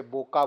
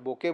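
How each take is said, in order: First: बोका with a long open aa at the end; bokaa pronunciation. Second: बोके ending in a clear e sound; bokeh pronunciation. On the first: Teacher shows one way people say बोका, ending in aa. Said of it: "कुछ लोग उसे बोका बोलते हैं". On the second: Teacher gives the other way people say बोके, ending in e. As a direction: say बोके with the final e, like the Japanese word. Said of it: "कुछ लोग बोके बोलते हैं". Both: Shown as a demonstration.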